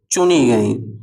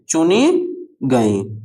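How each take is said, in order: First: Said in the usual way. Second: चुनी गई drawn out word by word; slow teacherly repeat of चुनी गई; slow dictation. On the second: Shown as a demonstration. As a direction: dictate चुनी, pause, then गई.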